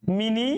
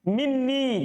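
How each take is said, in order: First: The n sound is short and single. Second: The n sound is held long and doubled. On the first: It is lightened out of poetic necessity. "Karena dalam keadaan darurat diringankan" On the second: This is the regular form. "ditasdid, bukan ditakfif"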